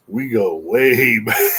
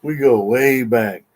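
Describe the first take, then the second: First: Slow, chuckling through it; laughing. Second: We go way back, slow and louder, GO leaned on; emphatic restatement. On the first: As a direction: laugh it out fondly, drawn out. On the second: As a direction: press every word of We go way back, slow and firm. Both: Real, not acted.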